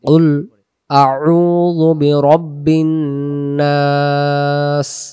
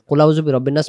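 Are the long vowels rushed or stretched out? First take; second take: stretched; rushed. First: It is recited slowly with long vowels stretched. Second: It is recited quickly with long vowels cut short. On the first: The speaker calls it right. "আমি আপনাদেরকে পড়াটা দেখাই দিই কিভাবে আমরা পড়বো" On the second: The speaker calls it wrong. "তাড়াহুড়া করে বলার কারণে ... সেই টানগুলো আমরা দেই না"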